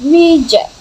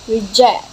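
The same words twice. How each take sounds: First: The stress is on the first syllable. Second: The stress is on the second syllable. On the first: "British English often places stress on earlier syllables" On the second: "American English favors later syllables"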